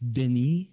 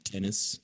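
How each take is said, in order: First: The name is pronounced the French way. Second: The name is pronounced the English way. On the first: The speaker calls it right. "He's a Frenchman" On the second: The speaker calls it wrong. "It's not Dennis"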